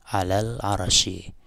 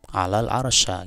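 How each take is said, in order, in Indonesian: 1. Kata terakhir berakhir dengan vokal i. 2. Kata terakhir berakhir dengan vokal a. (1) "dengan dijernya lafaz al arsy" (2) "dibaca fathah atau nasab pada al ars"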